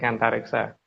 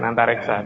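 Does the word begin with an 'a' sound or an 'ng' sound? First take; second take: ng sound; a sound. First: The word begins with an 'ng' sound. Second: The word begins directly with an 'a' vowel. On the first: The speaker calls it right. "tapi pakai N G depannya" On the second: The speaker calls it wrong. "Bukan Antariksa"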